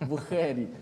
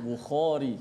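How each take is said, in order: First: The kh sound is pronounced light and thin. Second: The kh sound is pronounced heavy and thick. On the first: This follows everyday spoken habit. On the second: This follows the Quranic reading.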